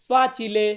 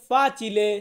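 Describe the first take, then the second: No difference in how they are said.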